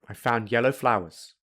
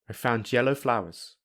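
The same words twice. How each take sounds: First: The d is dropped or softened. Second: The d and yellow merge into j. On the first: "I will say them without a d or a softer d" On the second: "I will use linking"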